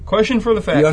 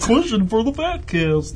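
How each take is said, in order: First: It is said in the speaker's normal voice. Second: It is said in a put-on cartoon moose voice.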